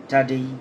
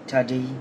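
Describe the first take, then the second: No difference in how they are said.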